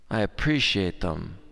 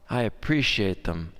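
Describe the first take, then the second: No difference in how they are said.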